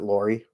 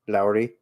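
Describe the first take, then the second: First: The name is said in an American way. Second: The name is said in a European way. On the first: "or is it Lori?" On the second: "trying to pronounce it the European way"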